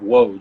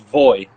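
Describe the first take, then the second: First: The name begins with a W sound. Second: The name begins with a V sound. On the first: It follows the English reading of the letters. "that's why most people pronounce it Woj" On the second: It follows the Polish reading of the letters. "in the Polish language, the W is a V and the Y and the J is a Y"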